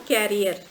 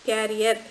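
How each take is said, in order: The two takes are said the same way.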